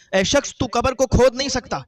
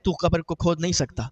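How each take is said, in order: First: Louder and higher, repeating the warning; a voice from the grave raising its warning; stern warning. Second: Said in the usual way. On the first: Acted. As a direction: call it out again so he hears this time. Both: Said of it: "تو آواز آئی".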